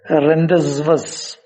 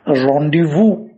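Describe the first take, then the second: First: It is pronounced letter by letter, as spelled. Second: It is pronounced differently from how it's spelled. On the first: The speaker calls it wrong. "going by the spelling, we pronounce it as" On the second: The speaker calls it right. "when in fact it has to be pronounced"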